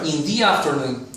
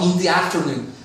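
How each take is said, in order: First: 'The' is said like 'thee' before the vowel. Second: 'The' is said like 'thuh' before the vowel. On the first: The speaker calls it right. "Be careful in here" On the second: The speaker calls it wrong. "Not in the afternoon, because here this word starts in the vowel"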